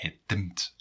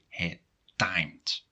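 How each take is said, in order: First: The verb is pronounced with Dutch sounds. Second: The verb is pronounced with English sounds. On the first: The speaker calls it wrong. "Otherwise it would be" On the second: The speaker calls it right. "you have to pronounce it the English way"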